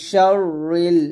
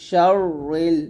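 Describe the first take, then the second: The two takes are said the same way.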